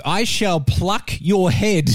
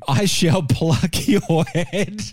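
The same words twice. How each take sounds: First: Said in the usual way. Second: Slow, giggling through the words; can't hold back the laughter while quoting; laughing through it. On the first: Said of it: "French chorus translates to". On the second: Real, not acted. Host repeating the gruesome chorus line while laughing.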